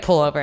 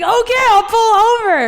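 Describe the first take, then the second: First: Said in the usual way. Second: Very high, loud mocking imitation; mock exasperated yell. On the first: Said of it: "I was like". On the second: Imitating her date finally agreeing to stop, mock exasperated yell. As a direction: squeal it out to mimic him giving in. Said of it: "He's like".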